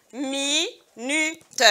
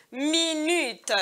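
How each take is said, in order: First: "Minute" split slowly into mi, nu, te; syllable by syllable. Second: Said in the usual way. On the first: Shown as a demonstration. Teacher sounding out a word for pupils, "Minute" syllable by syllable. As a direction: pause between each syllable of "Minute". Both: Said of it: "On entend U une seule fois".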